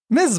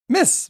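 First: The word ends with a buzzing z sound. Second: The word ends with a soft s sound. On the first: The speaker calls it right. "Hit it with that hard z" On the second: The speaker calls it wrong. "Did I say it wrong?"

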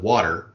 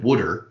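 First: It is said with a standard accent. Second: It is said with a Baltimore accent. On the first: "instead of water" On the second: "every time I said water"

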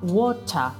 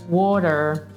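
First: The final R is not pronounced. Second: The final R is strongly pronounced. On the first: "in British English hanno la R completamente invisibile" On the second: "in americano hanno sempre la R fortissima"

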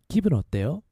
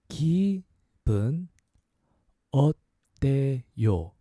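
First: It is said at a faster pace. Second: It is said at a slower pace.

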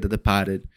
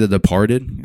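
First: It is said in a Boston accent. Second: It is said in a standard accent. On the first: The speaker calls it right. "It's a Boston movie. You have to say it" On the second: The speaker calls it wrong. "If you don't say it like that, if you say"

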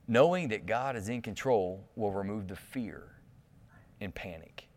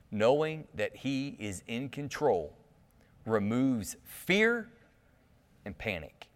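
First: It is said calmly and gently. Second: It is said intensely, with force.

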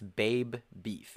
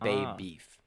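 First: The first word ends with a clear b sound. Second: The first word loses its final b sound. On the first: The speaker calls it right. "It's Babe Beef" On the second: The speaker calls it wrong. "not Babe Beef"

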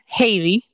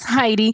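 First: The name is pronounced the Spanish way. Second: The name is pronounced the English way. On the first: "in Spanish is Heidi" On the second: "in English is Heidi"

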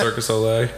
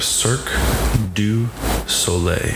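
First: The parts of the name blur into one. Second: Each part of the name is said distinctly. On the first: This is how most people commonly say it. "Circus Olay, I think, is more common" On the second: This is the proper pronunciation. "Is that the proper pronunciation? Yes"

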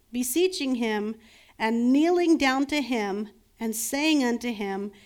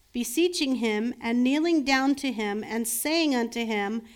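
No difference in how they are said.

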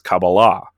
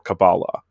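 First: It is said with a Hebrew pronunciation. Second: It is said with an English pronunciation.

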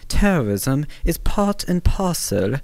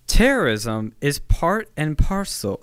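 First: It is said in a put-on British accent. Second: It is said in the speaker's ordinary accent.

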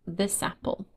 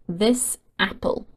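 First: The two words are joined into one. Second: The two words are said separately.

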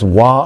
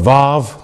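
First: The word begins with a W sound. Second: The word begins with a V sound. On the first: "it's a W sound"

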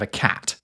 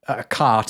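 First: The vowel is a short 'a'. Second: The vowel is a long open 'ah'. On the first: Everyone says it this way. The speaker calls it right. "instead of a cat" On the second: Nobody says it this way. The speaker calls it wrong. "no one's saying a cart instead of a cat"

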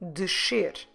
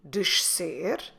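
First: Only a sh sound is heard, with no s. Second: A sh sound is followed directly by an s. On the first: "or just descer" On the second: "we can say descer"

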